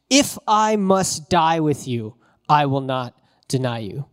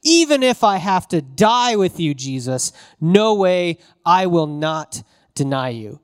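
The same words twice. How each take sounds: First: Slow, deliberate vow with weight on each word; emphatic. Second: Ratcheted up. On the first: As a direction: state it firmly, slowly, meaning every word. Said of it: "He says emphatically". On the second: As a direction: push the vow up hard, near a shout. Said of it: "Peter has ratcheted it up". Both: Retold or imitated.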